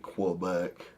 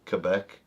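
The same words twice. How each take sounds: First: It is said the way outsiders pronounce it. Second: It is said the way local Canadians pronounce it. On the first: This is how people elsewhere say it. "But other people here say Quebec" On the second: This is how people from there say it. "That's how Canadians say it that are from there"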